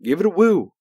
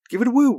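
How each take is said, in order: First: Said in the usual way. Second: Higher, louder hype call; rally them with the woo; excited woo call. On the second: Shown as a demonstration. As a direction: cheerleader pitch woo. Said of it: "Ric Flair woo".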